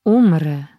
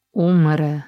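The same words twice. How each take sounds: First: Louder, falling cry of despair; a wounded man's anguished outcry. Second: A faint groan of despair; moaned. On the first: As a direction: push the word out with the last of his strength. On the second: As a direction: let the word sink out of him in pain. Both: Acted. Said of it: "jęknął".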